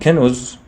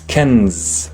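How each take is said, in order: First: A u vowel follows the n sound. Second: No vowel follows the n sound. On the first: The speaker calls it wrong. "it does not have a dhamma" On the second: The speaker calls it right. "It's kenz"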